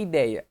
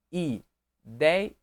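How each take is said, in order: First: Said in the usual way. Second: "ideia" split as i, dei, a; syllable by syllable. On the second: Shown as a demonstration. Teacher dividing the word for students, "ideia" syllable by syllable. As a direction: pause between each syllable of "ideia": i... dei... a. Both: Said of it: "separei ideia".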